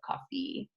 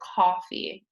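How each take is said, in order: First: The stress is on the last syllable. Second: The stress is on the first syllable. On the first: The speaker calls it wrong. "instead of coffee" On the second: The speaker calls it right. "we want to say coffee"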